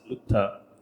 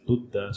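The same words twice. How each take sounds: First: The middle consonant sounds like a t. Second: The middle consonant is a clear d. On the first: The speaker calls it wrong. "this can come out of your mouth as lutta" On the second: The speaker calls it right. "when it is lutta"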